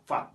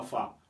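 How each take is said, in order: First: "fat" with the final T pronounced; final letter sounded. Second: "fa" with the final T left off; dropped final letter. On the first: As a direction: finish "fat" on an audible T. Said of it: "on prononce toujours la dernière lettre en anglais". (« fat » avec le t final prononcé) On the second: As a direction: show the wrong way: "fa", no T. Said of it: "On ne dit pas fa". (« fa » sans prononcer le t final) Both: Shown as a demonstration.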